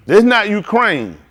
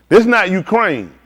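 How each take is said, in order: Both takes have the same delivery.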